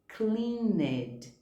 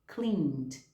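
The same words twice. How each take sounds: First: The ending is voiced as an extra syllable. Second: The ending adds no extra syllable. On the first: The speaker calls it wrong. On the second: The speaker calls it right.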